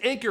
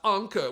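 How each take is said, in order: First: The name is said with a plain English pronunciation. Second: The name is said with a German-style pronunciation. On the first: The speaker calls it right. "it is Anker" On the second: The speaker calls it wrong. "not Anke, ... saying it with a German accent is way more fun"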